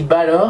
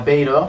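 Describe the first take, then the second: First: The first vowel sounds like 'ah'. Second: The first vowel sounds like 'ay'. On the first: The speaker calls it right. "je dis Balor et pas Baylor parce qu'il y a un accent sur le A" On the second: The speaker calls it wrong. "et pas Baylor"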